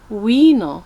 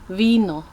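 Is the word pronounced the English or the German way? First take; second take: English; German. First: The word is given an English pronunciation. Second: The word is given a German pronunciation. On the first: "In English you'd say Wiener" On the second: "German Wiener"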